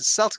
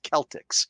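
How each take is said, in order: First: The word begins with an S sound. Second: The word begins with a K sound. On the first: This is how the basketball team is named. The speaker calls it wrong. "that's the only time I'll ever pronounce it Celtics" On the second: This is the proper way to say the word. The speaker calls it right. "you know it's pronounced Celtics"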